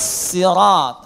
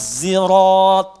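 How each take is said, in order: First: It begins with an emphatic, heavy s sound. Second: It begins with a sound close to z. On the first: "Boleh dibaca pakai sad" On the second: "Boleh dibaca ismam, ya, seperti terdengar huruf zai"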